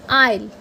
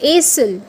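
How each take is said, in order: First: Aisle as eye-l, no s; the correct aisle. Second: Aisle with an s sounded, /esəl/; the mistaken aisle; wrong way. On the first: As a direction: say aisle like "I'll". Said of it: "It's aisle". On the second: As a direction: say aisle as ess-ul. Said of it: "what you say is". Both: Shown as a demonstration.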